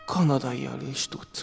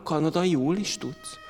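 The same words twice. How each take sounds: First: Kanadaial, ending in -ial; wrong suffix. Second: "kanadaiul", slowly with a rise; "kanadaiul" stressed, slower, rising at the end; corrected suffix. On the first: ("Kanadaial" hibás raggal) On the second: ("kanadaiul" helyes raggal, lassan, emelkedő dallammal) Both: Shown as a demonstration.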